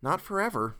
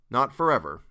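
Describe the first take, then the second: First: Higher-pitched, gentler retake; light, raised-pitch dialogue voice; Jared's character voice. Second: Louder, narrator's own pitch; plain-pitched, louder line; wrong character voice. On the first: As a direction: lift it into the father character's voice. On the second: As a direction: say it firmly in your own register. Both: A narrator's reading. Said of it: "Nope, not his voice".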